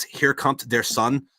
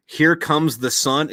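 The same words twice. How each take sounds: First: German accent. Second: Said in the usual way. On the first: Shown as a demonstration. Joking German is English: slow mock German accent. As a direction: lay on a jokey German accent, slowly. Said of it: "in German, the way you say". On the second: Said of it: "the way you say".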